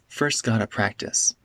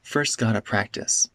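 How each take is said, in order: First: Got to is reduced to gotta. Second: The same.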